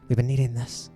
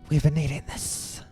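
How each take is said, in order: First: It is spoken in a different character voice. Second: It is spoken in a put-on snake voice. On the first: The speaker calls it right. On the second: The speaker calls it wrong.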